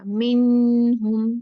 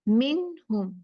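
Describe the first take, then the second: First: The n is nasalized and held long. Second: The n is clear and kept short. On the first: The speaker calls it wrong. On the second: The speaker calls it right.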